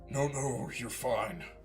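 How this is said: It is read in a put-on character voice.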